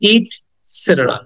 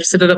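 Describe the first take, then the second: First: The first vowel sounds like 'i'. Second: The first vowel sounds like 'e'. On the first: The speaker calls it right. "প্রকৃত উচ্চারণ হবে ইটসেটেরা" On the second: The speaker calls it wrong. "অনেকে হয়তো এটসেটেরা বলে"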